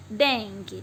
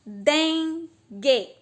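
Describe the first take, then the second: First: Said in the usual way. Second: Dengue split into DEN, pause, GUE; syllable by syllable. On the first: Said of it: "Letra é uma coisa". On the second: Shown as a demonstration. Teacher showing pupils the pieces of the word, Dengue broken into den-gue. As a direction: sound out Dengue slowly in two held, full syllables. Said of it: "Cada vez que eu abro a boca".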